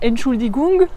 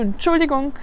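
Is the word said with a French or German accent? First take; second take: French; German. First: It is said slowly with a French accent. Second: It is said quickly with a German accent. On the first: The speaker calls it wrong. "C'est pas Entschuldigung avec le bon accent français" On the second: The speaker calls it right. "mais plutôt Entschuldigung. Voilà, ça passe un peu vite"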